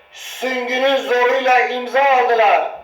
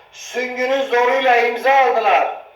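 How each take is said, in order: No difference in how they are said.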